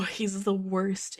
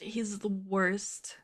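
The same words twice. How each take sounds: First: Said in the usual way. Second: Slow unvoiced whisper. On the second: Shown as a demonstration. Repeating it to herself as a slow whisper. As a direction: breathe it out slowly.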